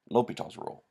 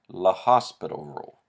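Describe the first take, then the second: First: The name is said without an s sound. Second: The name is said with an s sound. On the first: The speaker calls it right. "the way I've been pronouncing it the entire lecture" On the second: The speaker calls it wrong. "You will sound silly if you call it La Hospital rule"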